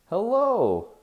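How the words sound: The greeting sounds warm and happy. The listener is someone known and welcome. "someone who I know and who I'm happy to see, I might say it in a different way"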